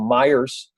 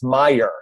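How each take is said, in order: First: The name ends with an added s sound. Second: The name ends without any s sound. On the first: The speaker calls it wrong. "older relatives, and they say" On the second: The speaker calls it right. "What do you mean? It's Meyer"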